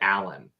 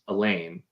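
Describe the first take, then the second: First: The name sounds like Alan. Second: The name sounds like Elaine. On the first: The speaker calls it right. "apparently it's it's closer to Alan" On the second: The speaker calls it wrong. "pronounced as Elaine the entire time"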